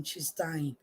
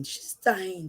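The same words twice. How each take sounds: First: Hushed repeat. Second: Said in the usual way. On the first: Shown as a demonstration.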